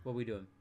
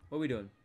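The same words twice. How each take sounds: The two takes are said the same way.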